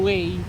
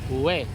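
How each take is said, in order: First: It starts with a plain w sound. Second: It starts with an oo vowel. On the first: It is read as it is spelled. The speaker calls it wrong. "pag sinabi mong way, hindi nila maiintindihan" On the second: It is how the locals say it. The speaker calls it right. "ang tamang pronunciation sa kanila"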